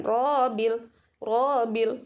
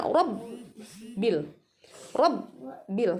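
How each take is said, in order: First: "Robil" with long roo, single b; swung ro. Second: "Robbil" with short ro, doubled b held; pressed tasydid. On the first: Teacher shows a common mistake, "Robil" with lengthened ro. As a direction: stretch the first vowel of "Robil". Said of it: "ada yang mengayunkan". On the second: Teacher models tasydid, "Robbil" with stressed double b. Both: Shown as a demonstration.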